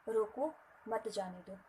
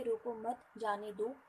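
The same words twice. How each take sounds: First: रोको set apart, then मत जाने दो as one piece; pause after रोको. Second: रोको मत joined, then a break before जाने दो; pause after मत. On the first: Teacher recapping the other reading, pause after रोको. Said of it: "शब्द के बाद विराम दिया गया". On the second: Teacher recapping the Hindi example, pause after मत. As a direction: run रोको मत together, set जाने दो apart. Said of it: "आपने नहीं रोका और जाने दिया". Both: Shown as a demonstration.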